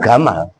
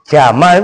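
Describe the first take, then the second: First: The word begins with a hard g sound. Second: The word begins with a soft j sound.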